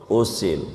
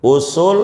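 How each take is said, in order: First: Usil dropped lower and softer with a falling end; usil said clearly. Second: Usul with a rising, slightly louder finish; usul said clearly. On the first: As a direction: let usil sink, quiet and falling. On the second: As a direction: stress the U in Usul and lift it at the end. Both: Shown as a demonstration. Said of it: "ada usul, ada usil".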